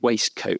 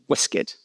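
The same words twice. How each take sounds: First: The word is said fully, following its spelling. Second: The word is said in a reduced, contracted form. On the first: It reflects newer, fashionable usage copied from spelling. "waistcoat is simply a spelling pronunciation" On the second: It marks an older, upper-class way of speaking. "the more gentlemanly pronunciation of waistcoat"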